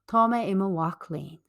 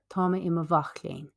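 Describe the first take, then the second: First: The consonant before 'ach' sounds like a W. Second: The consonant before 'ach' sounds like a V.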